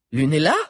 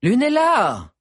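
First: Rising, anxious call of her name; worried question. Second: Loud call, name thrown high. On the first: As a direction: ask gently if she's alright. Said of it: "répéta encore Liu". (appel inquiet et interrogatif) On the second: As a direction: call her name across the crowd. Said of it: "répéta". (appel fort et aigu) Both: Acted.

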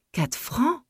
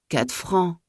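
First: High, startled cry of disbelief; shocked outcry. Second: Mild indignant repeat. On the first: Widow stunned by the well-digger's price, shocked high cry. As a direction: spit the price back, much higher, aghast. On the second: Widow repeating the price to herself, mild disbelief. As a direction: settle back into disbelief on "Quatre francs.". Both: A narrator's reading. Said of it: "Elle eut un sursaut".

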